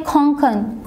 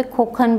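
First: खोंखन with a nasal ng before the kh; खोंखन read as it is spelled, nasal ng sound; spelling pronunciation. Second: खोखन without any nasal sound; local pronunciation. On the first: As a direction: say खोंखन as khong-khan, nasal in the first syllable. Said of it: "खोंखन जो है खोखन भी बोलते हैं". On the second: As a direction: say खोखन as kho-khan, plain o with no ng. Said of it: "local language के basis पे खोखन बोलते हैं". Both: Shown as a demonstration.

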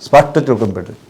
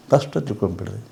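First: Said in the usual way. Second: ಸ್ಪಷ್ಟ said again much softer, rising at the end; quiet repeat. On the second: Shown as a demonstration. Guru repeating his point to the audience: soft, rising echo.

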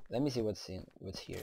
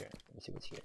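First: Said in the usual way. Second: Toneless whisper to yourself. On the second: Shown as a demonstration. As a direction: murmur it under your breath while searching. Whispered repeat while searching.

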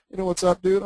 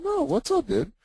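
First: Put-on casual young guy. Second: Put-on mirroring young slang. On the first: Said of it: "a younger person and they're saying". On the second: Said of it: "I'm like".

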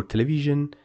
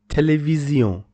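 First: Television ending in an English 'zhun'; English pronunciation. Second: Television ending in a nasal 'zyon'; French pronunciation. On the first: Teacher translating the French word, English 'zhun' ending. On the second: Teacher giving the French word, French nasal ending. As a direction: say Television the French way, 'tay-lay-vee-zyon'. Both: Shown as a demonstration.

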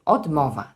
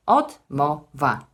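First: "Odmowa" in two parts, Od and mowa; split into two parts. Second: "Odmowa" slowly as Od, mo, wa with pauses; split into three syllables. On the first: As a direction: say "Odmowa" as Od-mowa, keeping mowa whole. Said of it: "morfologicznie uzyskamy dwie sylaby". („Odmowa” na dwie części: Od-mowa) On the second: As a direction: break "Odmowa" into three separate beats, Od-mo-wa. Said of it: "Fonetycznie uzyskamy tutaj trzy sylaby". („Odmowa” powoli, na trzy sylaby: Od-mo-wa) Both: Shown as a demonstration.

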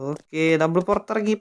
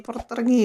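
First: Said in the usual way. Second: Jumps up high with relief; we made it out, squeal it; excited. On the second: Real, not acted. Gamer cheering his escape to viewers, excited high yelp.

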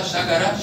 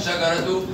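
First: Slow شجرة as "shagarah"; pausal haa. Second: Slow شجرة as "shagaratu"; sounded taa. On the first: Teacher confirms the rule, شجرة ending in -ah. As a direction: end شجرة on h. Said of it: "نطقت هاء مرة". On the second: Teacher confirms the rule, شجرة ending in -tu. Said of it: "وتاء مرة". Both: Shown as a demonstration.

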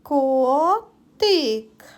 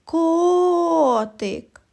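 First: Котик split into two drawn-out syllables; careful two-part Котик. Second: Higher Котик, first vowel long and stressed; sing-out call of Котик with a long О. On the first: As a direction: sound out Котик slowly, pausing between syllables. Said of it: "Зробимо звуковий аналіз слова котик". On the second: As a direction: call the cat, stretching the О in Котик. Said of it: "А тепер покличемо котика". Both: Shown as a demonstration.

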